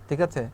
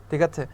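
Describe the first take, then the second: The two takes are said the same way.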